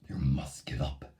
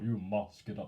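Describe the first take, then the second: First: It is said in a deep, creepy voice. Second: It is said in an ordinary voice.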